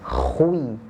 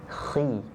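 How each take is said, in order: First: The syllable is said fully heavy and rounded. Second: The syllable is said only slightly heavy. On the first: The speaker calls it wrong. "bukan dibaca khui" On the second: The speaker calls it right. "tetapi khi"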